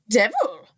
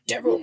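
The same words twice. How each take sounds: First: The word is said in a feminine voice. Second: The word is said in a masculine voice. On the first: The speaker calls it right. "The devil is way more feminine than that" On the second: The speaker calls it wrong. "not devil"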